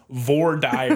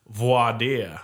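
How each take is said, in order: First: The first word has an anglicized sound. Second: The first word has a French-like sound. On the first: The speaker calls it wrong. "people that say it like Philistines" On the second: The speaker calls it right. "people that say it right"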